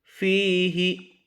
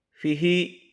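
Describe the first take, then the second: First: Fihi slow with fi held for two beats; correct long vowel. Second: Fihi with the fi cut short; short wrong reading. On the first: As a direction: swing the fi of fihi long and sung. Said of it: "Seharusnya fihi". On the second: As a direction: clip the i in fihi, the mistake to avoid. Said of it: "Jangan dibaca". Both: Shown as a demonstration.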